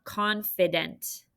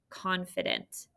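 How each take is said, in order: First: Slow careful read. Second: "confident" whispered, no voice. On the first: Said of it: "our word of the day". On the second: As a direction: breathe the word softly to them. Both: Shown as a demonstration.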